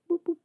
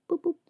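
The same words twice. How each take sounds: The two takes are said the same way.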